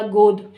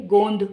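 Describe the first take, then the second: First: गोद with a plain long o straight into d; गोद said firmly and louder, no n; no nasal sound. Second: गोंद with a nasal n before the d; nasal sound added. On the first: Teacher gives the undotted example, गोद without nasal. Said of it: "और उदाहरण देखिए". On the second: Teacher adds the dot, गोंद with a clear nasal. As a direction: hum the o of गोंद through the nose into nd. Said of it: "गो के ऊपर अंग की बिंदु लगा दूँ". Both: Shown as a demonstration.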